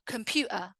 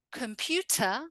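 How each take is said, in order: First: "computer" as "compu'ah"; throat catch in place of T in "computer"; glottal T. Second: "Computer" with a crisp T; careful "com-pyu-tah"; full T. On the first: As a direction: cut the T in "computer". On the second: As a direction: sound the T fully in "Computer". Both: Shown as a demonstration. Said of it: "in the two different ways".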